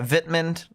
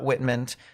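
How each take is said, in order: First: The name begins with a V sound. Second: The name begins with a W sound. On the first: The speaker calls it right. "they pronounce it with V's" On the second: The speaker calls it wrong. "not Whitmund. They don't pronounce the W's"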